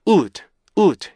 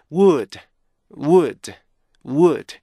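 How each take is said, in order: First: "would, would" said with heavy force; wrong forced stress. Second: "would" said evenly at a steady level each time; the right way, level and even; even stress. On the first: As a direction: push hard on each "would". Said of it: "이렇게 힘을 줘서 읽는 게 아니고요". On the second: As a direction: keep every "would" the same strength. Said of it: "일정하게요". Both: Shown as a demonstration.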